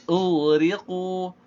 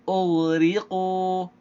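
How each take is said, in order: Both takes have the same delivery.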